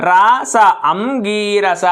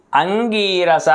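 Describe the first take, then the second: First: Slow syllable-by-syllable అంగీరస with the సున్నా not said as the velar ఙ sound; wrong pronunciation. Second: అంగీరస with the సున్నా said as the velar nasal ఙ before గ, ang-gee-ra-sa; correct pronunciation. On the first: Teacher showing students the common mistake, slow wrong అంగీరస. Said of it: "అది తప్పు కదా". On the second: Teacher giving students the right way, careful అంగీరస. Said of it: "గాకు దాపల సున్నా పెడితే ఇంగా". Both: Shown as a demonstration.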